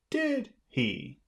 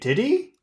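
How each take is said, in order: First: It sounds confident, like expecting agreement. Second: It sounds unsure, like asking for an answer. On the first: The speaker expects the listener to agree. The speaker calls it right. "if you want to sound confident, you have to say" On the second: The speaker wants the listener to say what happened. The speaker calls it wrong. "You, you're not sure, and you're asking me to tell you"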